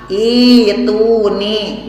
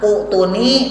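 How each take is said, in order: First: The word starts with an i sound. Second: The word starts with an u sound. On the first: This is how the word is recited. "dibaca nama ituni" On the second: This is how the word is written. "ditulis nama utuni"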